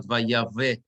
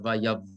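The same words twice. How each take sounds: First: "Vayave" with a vowel voiced after the v; wrong pronunciation. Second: "Vayav" closed on a v, no vowel after; correct pronunciation. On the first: Teacher showing the class what not to say, "Vayave" with an added vowel. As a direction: open "Vayave" into an extra final syllable. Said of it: "Everybody understand why it's Vayav". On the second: Teacher correcting the word for the class, "Vayav" ending on v. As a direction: stop "Vayav" on the v sound. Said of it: "not Vayave, but Vayav". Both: Shown as a demonstration.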